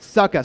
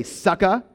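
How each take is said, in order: First: "Sucka" punched out louder, falling, SUCK-uh. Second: "Sucka" with a rising ask, SUCK-uh; sucka prompt. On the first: Pastor leading the congregation in shouting "Sucka", falling. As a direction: bellow "Sucka" like a call and response. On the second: Pastor prompting the congregation to repeat "Sucka", rising. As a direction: hand it to the crowd, "Sucka?" going up. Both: Shown as a demonstration. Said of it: "So can everyone say".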